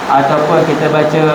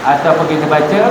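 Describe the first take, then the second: The two takes are said the same way.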